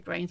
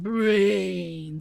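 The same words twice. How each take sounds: First: The word is said in a plain, ordinary voice. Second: The word is drawn out in a groaning zombie voice. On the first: The speaker calls it wrong. "you don't say brains" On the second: The speaker calls it right. "but brains"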